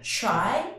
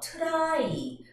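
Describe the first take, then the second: First: The t sounds close to a ch sound. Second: The t is a plain, letter-by-letter t sound. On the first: The speaker calls it right. "ch 발음 있죠?" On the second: The speaker calls it wrong. "말을 그대로 살려서 try, truck, trust 이러시면 안 되고요"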